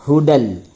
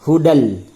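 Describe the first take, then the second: First: The word ends with an l sound. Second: The word ends with an l sound.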